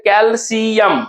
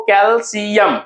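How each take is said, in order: First: कैल्शियम slowly, kel, see, yam; कैल्शियम drawn out, each syllable separate. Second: Said in the usual way. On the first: Shown as a demonstration. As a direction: break कैल्शियम into three parts. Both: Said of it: "हम लोग क्या लिखते हैं".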